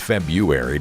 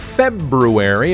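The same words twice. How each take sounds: First: The first r after 'Feb' is dropped. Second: The first r after 'Feb' is pronounced. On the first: "Everybody says February" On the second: "that's the right way to say it"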